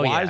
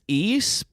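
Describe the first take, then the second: First: The name sounds like 'wise'. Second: The name sounds like 'east'. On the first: The speaker calls it wrong. "but not not" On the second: The speaker calls it right. "I think it's East"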